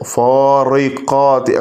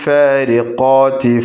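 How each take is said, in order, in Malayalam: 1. "r" ശബ്ദം കനമുള്ളതും കട്ടിയുള്ളതുമാണ്. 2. "r" ശബ്ദം നേർത്തതും മെലിഞ്ഞതുമാണ്. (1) "കനത്ത് പറയൂല" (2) "തർക്കീക്ക് ചെയ്തിട്ട് ലോലമായിട്ടാണ് ഉച്ചരിക്കുക"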